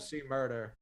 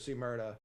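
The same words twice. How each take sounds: First: The final R is pronounced hard. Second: The final R is softened or dropped. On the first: The speaker calls it wrong. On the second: The speaker calls it right. "No hard R on see murder"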